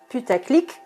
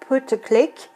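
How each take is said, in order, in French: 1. Le mot se prononce à la française. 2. Le mot se prononce à l'anglaise. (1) "comme on dit avec la prononciation française" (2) "en anglais"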